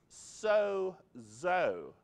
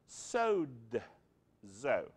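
First: There is no d sound before the z. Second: A quiet d sound comes before the z. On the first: "a lot of people pronounce so-zo" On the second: "has a little quiet D sound in it"

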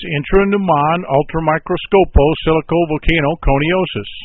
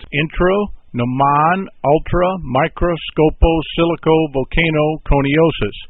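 First: The word is said at a quicker pace. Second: The word is said slowly, part by part.

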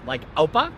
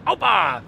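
First: It is said at normal volume without force. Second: It is said very loudly with force.

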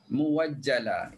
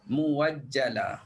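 First: A w sound comes before the second vowel. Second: A w sound comes before the second vowel.

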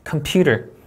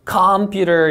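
First: The stress is on the second syllable. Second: The stress is not on the second syllable. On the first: The speaker calls it right. "이음절 강세" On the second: The speaker calls it wrong. "이렇게 하면 바로 어색해지죠"

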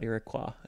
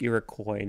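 First: The word ends with a 'kwa' sound. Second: The word ends with a 'koy' sound. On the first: This follows the French origin of the word. The speaker calls it right. "So the correct pronunciation would be the French pronunciation. So O-I in French is pronounced quoi" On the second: This is the form commenters claim is correct. The speaker calls it wrong. "sometimes people like come into the comments being like, actually, it's pronounced Iroquois"

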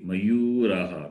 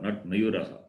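First: A vowel in the word is held long. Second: The vowel in the word is said short. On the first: The speaker calls it right. "Read properly" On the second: The speaker calls it wrong.

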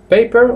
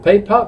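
First: It is said with an American accent. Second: It is said with a British accent.

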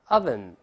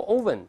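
First: The first vowel sounds like 'uh'. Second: The first vowel sounds like 'oh'. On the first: The speaker calls it right. "一定前面这个字母o 发倒v 字的这个啊" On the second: The speaker calls it wrong. "注意不要读oven 啊"

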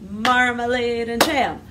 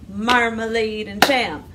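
The two takes are said the same way.

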